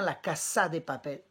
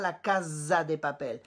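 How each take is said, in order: First: The s in casa is a hissing sound. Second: The s in casa is a buzzing sound. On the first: The speaker calls it right. "On dit bien ... C'est un S comme Sophie" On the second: The speaker calls it wrong. "On ne dit surtout pas ... Le son bzz"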